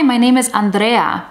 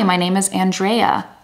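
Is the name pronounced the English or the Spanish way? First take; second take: Spanish; English. First: The name is said with Spanish pronunciation. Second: The name is said with English pronunciation. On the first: "which is difficult for an English speaker" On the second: "learn how to say your name in an English way"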